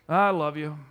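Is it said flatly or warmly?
flatly. It is said flatly, as a duty.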